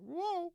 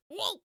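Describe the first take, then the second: First: High falling whoa; usual whoa. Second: High yelped whoa; meme whoa. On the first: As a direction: yelp it high, then let it drop. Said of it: "He's usually like". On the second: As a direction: yelp it high. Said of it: "responsible for that meme where he's like". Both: Retold or imitated.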